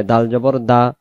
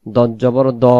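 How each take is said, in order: First: দাল জবর দা with an open, thin "daa"; light Dal. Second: দদ জবর দ with a thick, rounded "do"; heavy Dad. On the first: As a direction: keep দা light and unrounded. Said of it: "দাল বলার সময় দালের মতো". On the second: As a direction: round দ to a full "o". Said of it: "দদ বলার সময় দদের মতো". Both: Shown as a demonstration.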